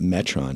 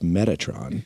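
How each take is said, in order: First: The name is said with two syllables. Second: The name is said with three syllables. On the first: The speaker calls it wrong. "It's not Metron" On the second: The speaker calls it right. "it's Metatron"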